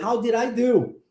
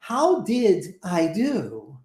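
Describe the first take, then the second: First: The words run together, with did I linked. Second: The words are said separately and carefully.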